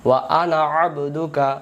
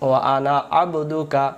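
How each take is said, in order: No difference in how they are said.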